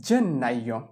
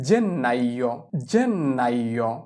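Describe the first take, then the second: First: Said in the usual way. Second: Slow model pronunciation. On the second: Shown as a demonstration. Teacher modelling Italian for January, slowly drawn out. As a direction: draw out জেন্নাইও, lingering on each part. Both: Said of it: "জানুয়ারিকে বলা হয়".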